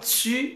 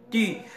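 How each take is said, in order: First: The t is followed by a hissing sound. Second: The t is a clean, sharp stop. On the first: The speaker calls it wrong. "On ne dit pas tu" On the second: The speaker calls it right. "il faut mettre la pointe de la langue avec les dents pour dire tu"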